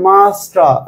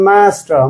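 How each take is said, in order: First: British accent, with no r sound. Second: American accent, with a flat 'a' vowel. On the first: "British ইংলিশে মাস্টার, রটা silent" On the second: "American ইংলিশে pronunciation মাস্টার"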